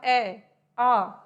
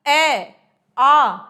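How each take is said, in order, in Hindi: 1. स्वर धीरे और हल्की आवाज़ में बोले जाते हैं। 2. स्वर ज़ोर से और साफ़ आवाज़ में बोले जाते हैं।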